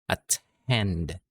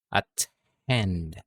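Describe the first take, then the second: Both takes have the same delivery.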